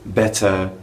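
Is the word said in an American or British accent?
British. It has a British accent with a clear T. "in a more proper British sounding dialect"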